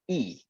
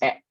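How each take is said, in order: First: The letter is said with an 'ee' vowel. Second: The letter is said with an 'eh' vowel. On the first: The speaker calls it right. "harusnya I" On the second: The speaker calls it wrong. "Jangan sampai nyebut huruf E-nya sebagai E"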